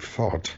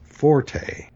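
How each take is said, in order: First: It has one syllable with no final vowel. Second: It has two syllables with a final vowel. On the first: It is the French-derived word. "the French-delivered word F-O-R-T-E" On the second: It is the Italian musical term for loud. "the Italian musical term for loud"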